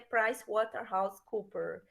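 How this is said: The name is said with an English accent. The speaker calls it right. "tem que falar com esse sotaque"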